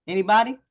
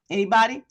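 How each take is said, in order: Both takes have the same delivery.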